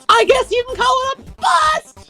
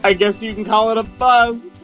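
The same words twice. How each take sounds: First: It is said in an impression of Daisy. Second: It is said in the speaker's normal voice.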